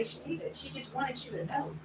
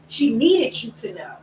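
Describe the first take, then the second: First: Soft, higher-pitched reminder to yourself; hushed, kindly correction; gentle self-talk. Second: NEEDED drawn out firmly; slow self-correction weighted on NEEDED; stress on NEEDED. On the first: Gently correcting herself in retelling. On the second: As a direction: lean slowly on the word needed. Firmer restatement of same reminder. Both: Retold or imitated.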